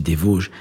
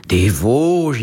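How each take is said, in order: First: Said in the usual way. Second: Louder, drawn-out mimicked amazement; astonished echo. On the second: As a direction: echo it as an astounded professor. Professor echoes the answer, astonished.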